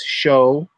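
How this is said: It begins with an SH sound, Argentine-style.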